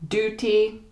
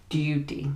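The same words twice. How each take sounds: First: American "Duty" with a simple oo; higher, "Duty" with no y sound; American pronunciation. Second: British "duty" with a you sound; softer, "duty" with a y glide; British pronunciation. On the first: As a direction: say "Duty" as DOO-tee. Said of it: "they use a more simple oo sound". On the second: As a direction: say "duty" as DYOO-tee. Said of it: "with the U sound". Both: Shown as a demonstration.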